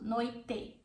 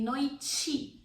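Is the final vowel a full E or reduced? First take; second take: full E; reduced. First: The final vowel is a full E sound. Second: The final vowel is a reduced sound. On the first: "if you want to pronounce the E sound" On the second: "using the reduction vowel sound"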